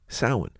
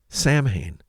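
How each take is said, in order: First: The word does not follow its letters. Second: The word is sounded out letter by letter. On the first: The speaker calls it right. "Nope, it's actually" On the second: The speaker calls it wrong. "that's how I've pronounced it to myself over the years when I've come across it in the written form"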